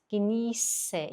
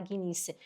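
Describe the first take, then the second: First: "Genieße" with drawn-out ie and hissed ß as s; long ie, S sound. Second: "Genieße" softly, less stretched; quiet, compact "Genieße" with s sound; soft model word. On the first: Teacher shows the letter's sound, stretched "Genieße". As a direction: hold the ie of "Genieße", then a clear s. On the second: Teacher repeats the word for learners, soft and unexaggerated. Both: Shown as a demonstration. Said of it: "também é longo".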